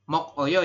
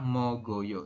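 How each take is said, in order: First: The middle consonant sounds like a k. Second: The middle consonant sounds like a g. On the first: It follows the written spelling. The speaker calls it wrong. "Ini kan tulisannya mokoyo ya" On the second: It follows the reading rule. The speaker calls it right. "Tapi Anda membaca yang benar adalah mogoyo"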